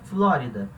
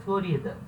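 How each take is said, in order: First: The word is pronounced the Portuguese way. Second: The word is pronounced the Spanish way. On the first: "Florida é Flórida" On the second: "A pronúncia vai ser um pouquinho diferente no espanhol"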